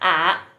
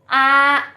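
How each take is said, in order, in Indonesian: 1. Nada turun rendah, lalu naik lagi. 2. Nada tetap tinggi dan datar. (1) "yang ketiga bacanya a gitu, karena keriting tandanya" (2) "a kalau satu"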